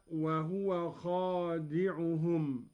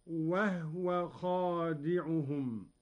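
First: Said in the usual way. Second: وهو slowly as wahwa, ha silent; Qalun reading. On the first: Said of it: "قوله تعالى". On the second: Shown as a demonstration. Teacher demonstrating the silent ha to students, slow recitation. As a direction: say وهو as wahw-wa. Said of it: "بإسكان الهاء هكذا".

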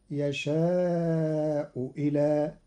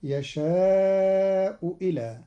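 First: يشاء إلى drawn out, hamza as a kasra waw; Qalun reading. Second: يشاء إلى chanted slowly, hamza turned to a kasra waw; Qalun reading. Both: Shown as a demonstration. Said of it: "بإبدال الهمزة واوا مكسورة".

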